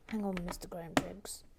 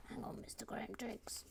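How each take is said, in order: First: Said in the usual way. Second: Whisper. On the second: Shown as a demonstration. Repeats the call, then whispers it.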